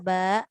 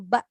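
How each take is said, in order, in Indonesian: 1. Vokalnya dibaca panjang. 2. Vokalnya dibaca pendek. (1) "panjangkan dulu" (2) "kita baca pendek"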